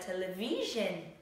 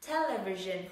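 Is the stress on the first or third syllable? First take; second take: third; first. First: The stress is on the third syllable. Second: The stress is on the first syllable. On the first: The speaker calls it wrong. "Nó không rơi vào âm television mà nó rơi vision" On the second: The speaker calls it right. "nó rơi vào âm tag"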